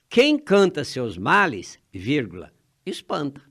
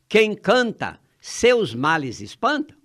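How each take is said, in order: First: The pause comes after 'males'. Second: The pause comes after 'canta'.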